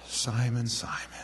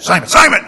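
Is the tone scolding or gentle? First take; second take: gentle; scolding. First: It is said softly and gently. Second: It is said as an irritated scolding.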